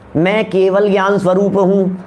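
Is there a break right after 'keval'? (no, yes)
no. Keval and gyan run together as one word. I am of the nature of omniscience. "बोलने में भेद डाल दो"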